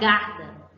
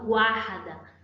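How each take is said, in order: First: It is said with no w sound after g. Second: It is said with a w sound after g. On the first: The speaker calls it wrong. "Eu não falo garda" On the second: The speaker calls it right. "Eu pronunciei G U A"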